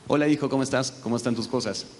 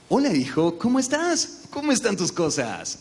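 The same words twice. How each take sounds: First: It sounds natural and conversational. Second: It sounds exaggerated and stereotyped.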